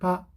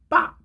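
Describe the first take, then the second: First: The p sound is plain and only lightly tense. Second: The p sound is strongly tense and hard. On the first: The speaker calls it right. "요거 중간 정도" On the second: The speaker calls it wrong. "너무 쌍비읍에 가깝게 하는 게 아니에요 ... 이러지 마시고"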